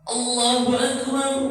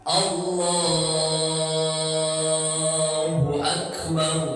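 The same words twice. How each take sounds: First: The phrase is said short and quick. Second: The phrase is drawn out long.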